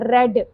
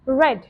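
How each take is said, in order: First: The r is a tapped Hindi-style sound. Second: The r is a smooth English-style sound. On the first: The speaker calls it wrong. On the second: The speaker calls it right.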